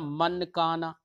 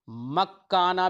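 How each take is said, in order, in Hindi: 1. n पूरा और साफ़ बोला जाता है। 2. n पूरी तरह दोहरे k में मिल जाता है। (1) "ये भी नहीं पढ़ा" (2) "ना ही हमने इसको इदगाम किया, मक्काना भी नहीं पढ़ दिया"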